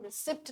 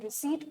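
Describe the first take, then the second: First: The p sound is pronounced before the t. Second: The p sound is silent before the t. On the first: The speaker calls it wrong. "आप इसको रिसिप्ट नहीं pronounce करते हैं" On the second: The speaker calls it right. "आप इसको रिसीट pronounce करते हैं, क्योंकि आप जानते हैं कि यहाँ पे जो पी है वो साइलेंट होता है"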